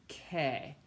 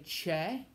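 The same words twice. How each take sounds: First: Che said "keh" as in Italian; hard K sound. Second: Che said "cheh" with a CH sound; English CH reading. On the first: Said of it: "adding an H ... makes the K sound". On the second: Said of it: "in English, when you see C H E, you wanna say". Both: Shown as a demonstration.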